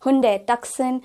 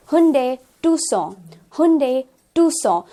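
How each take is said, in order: First: Tucson as "TUCK-sun", K sounded; mispronunciation. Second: Tucson as "TOO-saw", silent C; correct pronunciation. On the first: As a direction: say a hard C in Tucson. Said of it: "is an incorrect pronunciation". (Tucson का गलत उच्चारण, "टक्सन") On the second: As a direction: drop the K sound from Tucson. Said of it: "it's actually Tucson". (Tucson का सही उच्चारण, "टूसॉ") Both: Shown as a demonstration.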